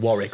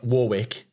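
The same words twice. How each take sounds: First: It is said in a British accent. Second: It is said in an American accent.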